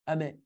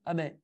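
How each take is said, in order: First: The final n sound is dropped from the word. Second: The same.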